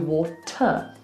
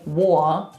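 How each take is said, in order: First: The middle T is clearly pronounced. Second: There is no stop at all in the middle. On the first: "it's just different to water" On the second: "We're not just going war"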